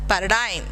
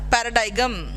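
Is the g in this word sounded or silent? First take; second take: silent; sounded. First: The g sound is silent in the word. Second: The g sound is pronounced in the word. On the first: The speaker calls it right. "You're pronouncing it as paradigm" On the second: The speaker calls it wrong. "you're not pronouncing it as paradigm"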